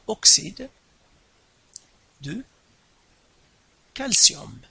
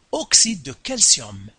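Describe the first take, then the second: First: "oxyde ... de ... calcium" with long pauses between words; teacher's slow, spaced-out dictation. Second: Said in the usual way. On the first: Shown as a demonstration. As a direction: spell out "oxyde de calcium" word by word for the class. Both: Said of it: "Donc, oxyde de calcium".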